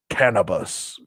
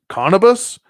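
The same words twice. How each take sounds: First: "Cannabis" with the short A of cat; short-A reading. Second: "Cannabis" as CAHN-uh-bis, high and questioning; AH pronunciation. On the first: Reading the steed's name, "Cannabis" with a short A. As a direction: say "Cannabis" like the drug, CAN-uh-bis. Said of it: "it's not Cannabis 'cause there's no A". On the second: Querying the steed's name, "Cannabis" as CAHN-uh-bis. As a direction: open the first vowel of "Cannabis" to AH. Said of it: "It's gotta be Cannabis". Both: Shown as a demonstration.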